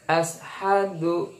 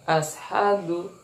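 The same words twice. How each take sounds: The two takes are said the same way.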